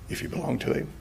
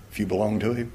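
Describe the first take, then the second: First: Hushed repeat, breathed with no voice; whisper. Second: Said in the usual way. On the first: Acted. Preacher reassures the congregation, intimate whisper. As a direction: lean in and whisper it to them.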